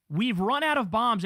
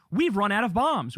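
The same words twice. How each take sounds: First: "We've run out of bombs" slow and savouring, proud; mock-gloat it like great news; slow proud boast. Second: Said in the usual way. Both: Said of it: "he's saying it like it's a great thing".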